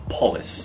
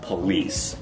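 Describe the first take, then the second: First: The stress is on the first syllable. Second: The stress is on the second syllable. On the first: The speaker calls it wrong. "he has the stress in the wrong place" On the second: The speaker calls it right. "he should be saying police"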